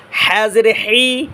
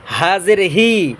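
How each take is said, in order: First: "হা জের হি" with H from the middle throat; slow drawn-out "হা জের হি", constricted mid-throat H. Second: "হা জের হি" with H from the start of the throat; slow "হা জের হি", open H from deep down. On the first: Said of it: "হা গলার মাঝখান থেকে". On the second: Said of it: "গলা শুরু হইতে". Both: Shown as a demonstration.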